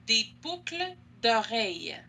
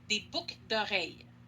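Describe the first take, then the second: First: It is said slowly with the L sound pronounced. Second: It is said quickly with the L sound dropped. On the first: "si je parle lentement, si je fais une dictée" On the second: "si je parle vite, je vais pas prononcer le L de boucle"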